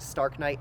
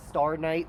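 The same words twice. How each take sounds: First: "Stark Knight" with a K closing the first word; alternate pronunciation. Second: Said in the usual way. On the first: Shown as a demonstration. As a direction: say "Stark Knight", sounding the K before Knight. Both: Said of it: "as some people pronounce it".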